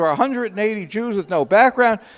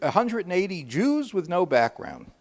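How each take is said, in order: First: It is said in a louder voice. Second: It is said at a normal volume.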